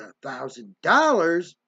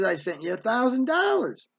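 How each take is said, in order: First: Slow, disbelieving repeat of the amount; drawn-out, affronted disbelief; incredulous echo. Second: Said in the usual way. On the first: Retold or imitated. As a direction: imitate a mother scoffing at the sum. Mother scoffs at the sum.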